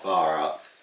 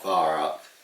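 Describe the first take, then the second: First: The name is said in an anglicised, mangled way. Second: The same.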